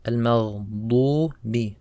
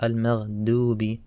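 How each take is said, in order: First: "Al-maghdubi" slowly, thick dark "duu"; heavy dad. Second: "al-maghdubi" with a plain thin d, like dal; dad too light. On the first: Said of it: "Same with the da as well". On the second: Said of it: "Some people make it too light". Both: Shown as a demonstration.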